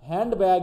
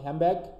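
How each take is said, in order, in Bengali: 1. প্রথম শব্দটি nd ধ্বনি দিয়ে শেষ হয়। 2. প্রথম শব্দটি m ধ্বনি দিয়ে শেষ হয়।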